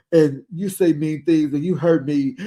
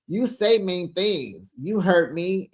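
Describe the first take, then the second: First: Hammed-up tearful complaint; mock crying. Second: Said in the usual way. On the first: Imitating Lisa crying at Heather, mock sobbing. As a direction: put on a blubbering, sobby voice. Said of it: "And she's crying". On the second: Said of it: "Why is Lisa crying?".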